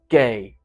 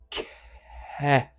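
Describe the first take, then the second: First: The voicing starts right at the consonant release. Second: The voicing starts a little after the consonant release. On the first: The speaker calls it wrong. "have my phonation too close" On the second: The speaker calls it right. "I want it to be more like"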